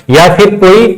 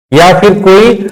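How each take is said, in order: Both takes have the same delivery.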